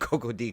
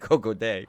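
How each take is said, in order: First: The final syllable is said as 'dee'. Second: The final syllable is said as 'day'. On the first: The speaker calls it wrong. "we've been saying it wrong this whole time" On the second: The speaker calls it right. "day is the way you're supposed to pronounce it"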